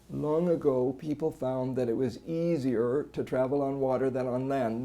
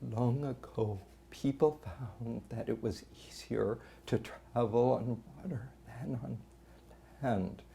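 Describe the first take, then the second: First: The voice is constantly strained without stoppages. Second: The voice keeps dropping away to breathy nothing.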